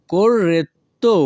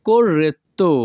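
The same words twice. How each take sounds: First: Corretto drawn out, "cor-ret... to"; slow corretto with a gap before the last syllable. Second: Said in the usual way. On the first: Shown as a demonstration. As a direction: separate the final "to" of corretto. Teacher repeats word split for learners.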